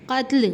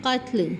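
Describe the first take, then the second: First: قتل with an extra vowel, qa-tal; wrong pronunciation. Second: قتل as one closed syllable, qatl; teacher giving the right form of قتل; correct pronunciation. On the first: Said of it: "قتل نہیں بولیں گے". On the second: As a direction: say قتل properly with sukoon on ta. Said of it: "کیا ہے اصل لفظ؟". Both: Shown as a demonstration.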